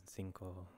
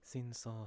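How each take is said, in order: First: Cinco as "sinko", second C like K; hard C. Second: Cinco as "sinso", second C like S; soft C. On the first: Reader testing how it should be said, hard C. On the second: Reader testing how it should be said, soft C. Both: Real, not acted. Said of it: "C is sometimes difficult letter".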